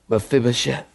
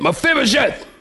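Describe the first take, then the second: First: The name is said softly and tenderly. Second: The name is said in an attempted stern voice.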